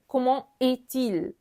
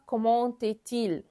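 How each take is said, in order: First: Comment and est are said without a linking t. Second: A t sound links comment to est. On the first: The speaker calls it right. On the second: The speaker calls it wrong.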